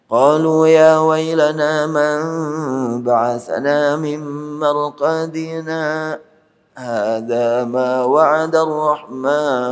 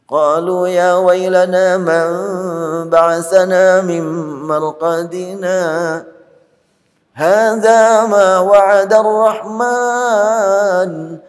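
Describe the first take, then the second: First: A brief stop without taking a breath after marqadina. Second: A full stop with a breath after marqadina.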